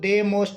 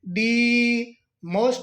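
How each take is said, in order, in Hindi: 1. 'The' छोटे 'thuh' स्वर के साथ बोला जाता है। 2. 'The' पर बहुत ज़ोर देकर 'thee' की तरह बोला जाता है। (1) "दे मोस्ट नहीं बोलेंगे" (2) "दी पर विशेष तौर पर बल देंगे"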